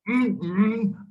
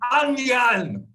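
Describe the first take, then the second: First: It is muffled through closed teeth and lips. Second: It is said loudly with a wide-open mouth.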